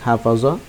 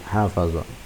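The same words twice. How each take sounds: First: The word is said short and clipped. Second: The word is said drawn out, not clipped. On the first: The speaker calls it wrong. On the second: The speaker calls it right.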